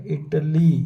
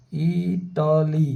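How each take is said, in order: First: Said in the usual way. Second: इटाली stretched slowly, each syllable held long; slowly drawn out. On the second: Shown as a demonstration. Teacher to students, sounding out the word very slowly. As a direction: spell out इटाली slowly for the class. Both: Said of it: "इसी तरह इटली".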